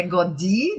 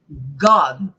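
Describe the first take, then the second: First: "Godi" as God with an extra "ee"; added final vowel. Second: "God" ending right on the D; one syllable "God", no "ee" after it; no final vowel. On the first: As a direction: tack a Brazilian i onto the end: "Godi". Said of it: "Não é Godi". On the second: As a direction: stop "God" on its consonant. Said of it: "não tem som de". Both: Shown as a demonstration.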